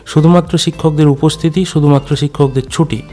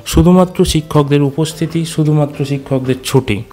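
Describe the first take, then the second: The two takes are said the same way.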